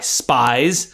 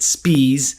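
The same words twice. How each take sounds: First: The name sounds like the word 'spies'. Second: The name is said with a long 'ee' sound. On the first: "You can understand why he may not want to go by Spies" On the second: "He pronounced it Spies"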